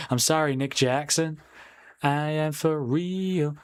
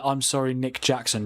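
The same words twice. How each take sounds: First: Slow, drawn-out sung hook; sung chant. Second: Said in the usual way. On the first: Pretend. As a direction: sing it with the last words stretched long. Tries out the chant in song.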